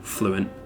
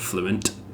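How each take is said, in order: First: The final T sound is dropped. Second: The final T sound is clearly pronounced. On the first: "dropped the T at the end there" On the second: "instead of fluent"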